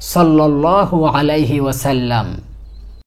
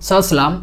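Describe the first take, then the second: First: Every word of the phrase is fully pronounced. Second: The phrase is clipped into one short slurred word. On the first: The speaker calls it right. "সঠিকভাবে দরুদ শরীফ পড়ি" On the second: The speaker calls it wrong. "অসম্পূর্ণ, অশুদ্ধ, বিকৃত এবং ভুল উচ্চারণ"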